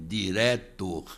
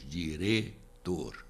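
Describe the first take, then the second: First: The vowel before the t is open. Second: The vowel before the t is closed. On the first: This is how the other community says it. "dizem diretor" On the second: This is how the speaker's own community says it. "nós dizemos diretor"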